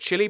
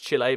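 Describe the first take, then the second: First: The name sounds like the word chilly. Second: The name sounds like chee-lay, not chilly. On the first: This is how the speaker grew up saying it. "I I call it Chile" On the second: This is probably the correct pronunciation. "I'm pretty sure it's Chile because you know there's not like a, a second L and a Y"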